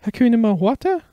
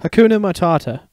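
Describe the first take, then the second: First: Hakuna Mawata said with a w, questioning rise; mispronounced phrase. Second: Hakuna Matata, each syllable slow and clear; slow correction. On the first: Cub tries the new phrase, mispronouncing Mawata. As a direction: say Mawata wrongly, higher and unsure. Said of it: "Harry asked". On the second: Warthog correcting the cub, slow and clear. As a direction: correct Matata gently and slowly. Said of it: "Pumbaa said slowly". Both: Acted.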